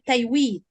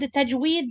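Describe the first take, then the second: First: The middle consonant is a 'y' sound. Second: The middle consonant is a 'j' sound. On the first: "They pronounce it ya instead of jim" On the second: "the word tajweed"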